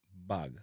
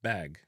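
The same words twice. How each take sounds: First: BAG with a relaxed open "ah", "bahg"; Jamaican pronunciation. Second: BAG with a tight short A, as in "cat"; American-style "bag"; North American pronunciation. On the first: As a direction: say bag the Jamaican way, loose "ah" vowel. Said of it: "with a relaxed R sound". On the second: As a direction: say bag the American way, front "aa" vowel. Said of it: "in a North America". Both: Shown as a demonstration.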